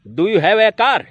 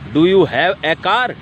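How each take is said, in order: First: It is said at a fast pace. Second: It is said at a slower pace.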